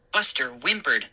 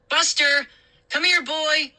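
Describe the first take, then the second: First: Said in the usual way. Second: High calling to the dog. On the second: A narrator's reading. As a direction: call the dog across the yard. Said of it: "I called".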